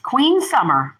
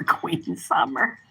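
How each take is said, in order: First: Said in the usual way. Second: Soft, slow whispered nickname; hushed, drawn-out whisper of the nickname. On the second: Real, not acted. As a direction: breathe the name out fondly, slowly. Whispers the nickname after saying it.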